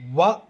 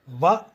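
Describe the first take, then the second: First: The syllable begins with a rounded-lip W sound. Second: The syllable begins with a lip-teeth V sound. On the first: "Now let us do it with the W starting" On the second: "Let us do it with the V sound"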